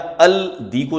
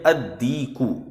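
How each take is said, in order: First: The l sound is pronounced before the d. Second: The l is dropped and the d is doubled. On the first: The speaker calls it wrong. "अल दीकू नहीं पढ़ेंगे" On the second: The speaker calls it right. "सीधा अलिफ को दाल से मिलाएंगे और पढ़ेंगे"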